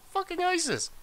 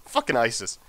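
First: "Fucking isis" squealed much higher, falling; a comic high squeal on "isis"; squeaky mock voice. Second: Said in the usual way. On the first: Repeats it in a squeaky voice.

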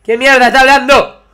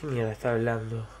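First: ¿Qué mierda está hablando? said high and loud; exasperated shout. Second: ¿Qué mierda está hablando? said softly and low; baffled muttering. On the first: Gamer loudly baffled by a character's babble. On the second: Gamer quietly baffled by a character's babble. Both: Real, not acted.

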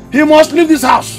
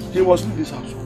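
First: Higher, insistent order; angry ultimatum. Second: Soft, low-key order; muted ultimatum. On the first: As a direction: insist angrily, pitch raised. Father repeats ultimatum in anger. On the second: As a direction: say it under control, much softer. Father's first, muted ultimatum. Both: Acted.

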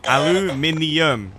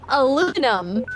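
First: "Aluminium" drawn out very slowly, a-lu-mi-ni-um; syllable-by-syllable British pronunciation. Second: Aluminum said the American way, a-LOO-mi-num; American pronunciation. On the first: Shown as a demonstration. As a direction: spell out every syllable of "Aluminium", ending in ni-um. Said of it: "just say aluminium". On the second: Real, not acted. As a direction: say "Aluminum" in four syllables, stress on LOO. Mock correction between two pronunciations.

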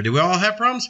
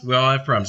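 First: "problems" rises as a question; asking the congregation. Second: Falling answer that stresses "all"; firm answer. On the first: Preacher asks the flock, question tune. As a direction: pull "problems" up at the end. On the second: Preacher answers himself, stress on "all". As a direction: press on "all" and fall. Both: Shown as a demonstration.

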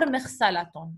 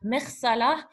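First: مغسلة said as "maghsalatun", with the -tun sounded; full ending pronounced. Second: مغسلة said as "maghsalah", ending on h; silent ending. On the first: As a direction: finish مغسلة on a clear "tun". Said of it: "Either you say". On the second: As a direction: drop the ending of مغسلة to a breathed h. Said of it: "if you want to make it silent". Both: Shown as a demonstration.

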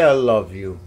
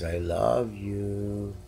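First: Loud, eager prompt to the cat; loud coaxing prompt. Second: Slow, soft imitation of the cat's "I love you"; imitating the cat. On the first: Shown as a demonstration. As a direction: call it out loud so the cat copies. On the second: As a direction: drawl it like the cat meowing it. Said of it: "when he says".

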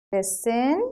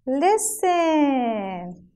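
First: Put-on listen, rising for children to repeat; listen with rising tune. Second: "listen" stretched and gliding down; listen, long falling model for children; listen drawn out, falling. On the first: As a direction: end listen on a rise. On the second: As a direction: stretch the end of listen downward. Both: Shown as a demonstration. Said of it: "So say it with me".

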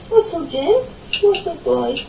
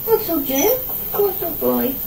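Both takes have the same delivery.

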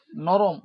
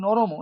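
First: নরম said very slowly, ending on a bare m with no vowel after it; final m without vowel. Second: নরম said as noromo, with an a vowel after the m; wrong full vowel. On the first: Teacher contrasting correct and wrong forms, slow correct নরম. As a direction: stress নরম as norom with a clipped closing m. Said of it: "নরম নয়". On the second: Teacher showing students the wrong pronunciation, final vowel added. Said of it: "তাহলে কিন্তু দন্ত নর ম". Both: Shown as a demonstration.

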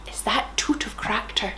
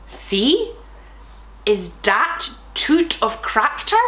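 First: Soft unvoiced whisper. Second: Said in the usual way. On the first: Shown as a demonstration. Host rereads the author's question in a whisper. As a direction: breathe it as a secret.

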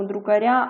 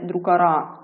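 First: "друкаря" with a softened, stressed "ря"; soft r. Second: "друкара" with a hard, stressed "ра"; unsoftened "р" ending on "друкара"; wrong hard r. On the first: Teacher shows the correct form "друкаря", soft r. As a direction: palatal "р" ending on "друкаря". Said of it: "це м'яка група". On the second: Teacher shows the mistaken form "друкара", hard r. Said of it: "а не друкара". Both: Shown as a demonstration.

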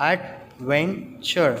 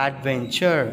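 First: Slow "adventure" in three separate beats; syllable by syllable. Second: Said in the usual way. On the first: Shown as a demonstration. Teacher counting syllables for children, "adventure" slowly split in three. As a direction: break "adventure" into ad, ven, ture with pauses. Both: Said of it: "three syllables".

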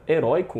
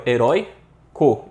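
First: Said in the usual way. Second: "Heróico" slowly broken before the last syllable, loud; syllable split. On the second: Shown as a demonstration. Teacher showing students where the diphthong falls, "Heróico" split slowly. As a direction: break "Heróico" into herói, pause, co.

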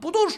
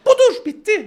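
First: Said in the usual way. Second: "Budur" much higher and louder; teacher shouting "Budur" to clinch the point; emphatic shout. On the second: Shown as a demonstration. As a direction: belt out "Budur" like a punchline.

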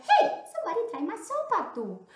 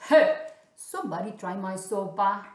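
First: High, loud mama bear. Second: Loud, indignant papa bear. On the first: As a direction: pitch it high as an indignant mother bear. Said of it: "also mama said". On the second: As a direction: call out as the big father bear. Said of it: "also papa said". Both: Acted.

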